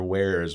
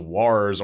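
First: It is said like the word 'where's'. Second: It is said like the word 'wars'. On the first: The speaker calls it right. "These are Where's with a Z" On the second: The speaker calls it wrong. "the people that would mispronounce it as Wars"

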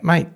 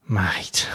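First: It sounds friendly, like a polite question. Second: It sounds muttered and disappointed, under the breath.

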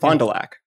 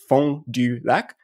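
First: The name is said with an anglicized local pronunciation. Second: The name is said with French pronunciation. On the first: This is how locals say the name. The speaker calls it wrong. "They pronounce it Fond du Lac" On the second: This is how the name should be said. The speaker calls it right. "correctly pronounced Fond du Lac"

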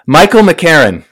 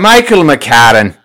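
First: The name is said in a plain accent. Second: The name is said in an Irish accent.

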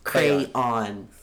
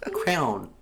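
First: The word is said with two syllables. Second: The word is squeezed into one syllable.

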